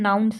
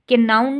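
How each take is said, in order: First: No k sound is pronounced at the start. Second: A k sound is pronounced at the start. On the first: The speaker calls it right. "हम नाउन सिर्फ कह रहे हैं" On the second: The speaker calls it wrong. "के नाउन नहीं कर रहे"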